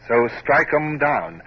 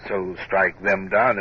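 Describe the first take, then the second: First: The line read slowly and loudly with stress on strike. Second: The line read slowly, saying them in full. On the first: Hornblower testing the poem line aloud, slow and stressed. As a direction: weigh each word of the verse. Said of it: "why did McCool write E M". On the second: Hornblower testing the corrected poem line, slow read. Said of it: "it sounds better than". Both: Shown as a demonstration.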